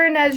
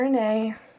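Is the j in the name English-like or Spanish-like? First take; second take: English; Spanish. First: The j is said like an English j. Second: The j is said like a Spanish j. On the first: "other people pronounce it Inej" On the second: "the sound that the J makes in Spanish"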